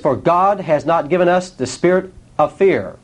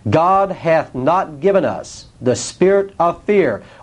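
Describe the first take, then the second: First: It is read at normal speed. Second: It is read slowly.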